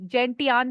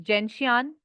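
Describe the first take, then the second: First: Gentian said with a hard T, "jen-tee-an"; alternative pronunciation. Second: Gentian said with an SH, "jen-shee-an"; own pronunciation. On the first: Teacher showing students how some others say it, gentian with a T sound. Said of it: "कुछ gentian भी बोलते हैं". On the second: Teacher giving students her own way, gentian with an SH sound. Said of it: "but I pronounce is". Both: Shown as a demonstration.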